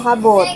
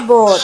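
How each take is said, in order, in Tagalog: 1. Nagsisimula ang salita sa tunog na h. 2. Nagsisimula ang salita sa tunog ng patinig.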